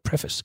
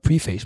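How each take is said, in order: First: The vowels depart from a spelling-based reading. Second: The vowels follow a spelling-based reading. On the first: The speaker calls it right. "Nej, det hedder preface" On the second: The speaker calls it wrong. "Det staves P-R-E-F-A-C-E, som man tænker, det hedder nok preface"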